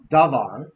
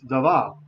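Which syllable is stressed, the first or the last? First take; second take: first; last. First: The stress is on the first syllable. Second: The stress is on the last syllable. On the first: The speaker calls it wrong. "It's not davar" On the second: The speaker calls it right. "it's davar, right? ... Hebrew wants usually to have the accent on the last syllable"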